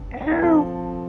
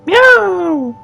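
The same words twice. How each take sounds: First: The meow is soft and quiet. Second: The meow is loud and strong.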